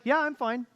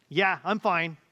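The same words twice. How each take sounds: First: "Yeah, I'm fine" said lightly and openly, pitch lifted high; a breezy, genuine "Yeah, I'm fine"; bright honest fine. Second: "Yeah, I'm fine" said flatter and clipped, a hint of hiding something; a mildly terse "Yeah, I'm fine" that means the opposite; curt not-fine fine. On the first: Retold or imitated. Pastor voices his wife truly being fine, lightly and brightly. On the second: Pastor voices his wife saying fine while not fine, a touch curt. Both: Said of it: "says something entirely different".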